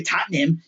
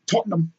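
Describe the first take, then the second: First: "Tottenham" with a broad American first vowel, like "Tattenham"; American mispronunciation. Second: "Tottenham" with a British rounded first vowel; British pronunciation. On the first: Vlogger showing what not to say, Americanized "Tottenham". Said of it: "You can't say Tottenham". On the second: Vlogger correcting the club's name, British-style "Tottenham". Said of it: "That's how they say it". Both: Shown as a demonstration.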